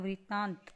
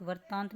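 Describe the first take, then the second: First: वृत्तांत said as vrittaant; vri syllable. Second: वृत्तांत said as vartaant; wrong first syllable. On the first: Teacher gives the correction, वृत्तांत with vri. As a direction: open वृत्तांत clearly with vri. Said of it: "क्या होता है". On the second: Teacher shows the mistake, वृत्तांत as vartaant. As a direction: put var for vri in वृत्तांत. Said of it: "नहीं होता". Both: Shown as a demonstration.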